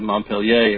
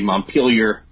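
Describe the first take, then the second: First: The name is said the original French way. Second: The name is said the local Vermont way. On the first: "instead of Montpellier" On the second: "how they say Montpelier"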